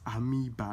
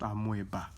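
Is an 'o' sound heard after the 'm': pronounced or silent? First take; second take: silent; pronounced. First: The O sound is silent after the m. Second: An O sound is pronounced after the m. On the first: The speaker calls it right. "The O is silent. So the O is silent. It's amoeba" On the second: The speaker calls it wrong. "not amoeba"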